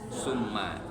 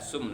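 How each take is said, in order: First: The word ends with a final vowel. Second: The word ends without a final vowel. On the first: The speaker calls it right. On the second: The speaker calls it wrong.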